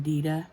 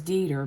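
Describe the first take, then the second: First: "Dieter" as DEE-duh, final r dropped; his own pronunciation. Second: Said in the usual way. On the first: Shown as a demonstration. Telling what we call our German friend, "Dieter" said his way, DEE-duh. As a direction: say "Dieter" with an open -uh ending. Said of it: "that's how he pronounces it". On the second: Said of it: "but we call him Dieter".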